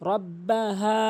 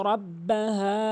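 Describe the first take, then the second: No difference in how they are said.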